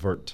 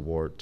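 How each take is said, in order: First: The name is pronounced the German way. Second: The name is pronounced the anglicized English way. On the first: "The Germans pronounce that Wirt" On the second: "it gets anglicized to Wart"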